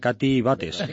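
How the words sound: The name is said with a Spanish accent. "dicho en plan Cuenca"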